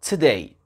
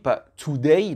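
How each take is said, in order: First: The first vowel is reduced, barely pronounced. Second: The first vowel is pronounced as a full O. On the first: The speaker calls it right. "le O n'est pas prononcé" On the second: The speaker calls it wrong. "pas today, non"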